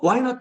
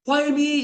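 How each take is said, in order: First: High rising keen why not; eager why not. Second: High whiny why me; high plaintive why me; complaining why me. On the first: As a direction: toss off an eager yes. Contrasted with Why me. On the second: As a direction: whine the why me. Contrasted with Why not. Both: Pretend.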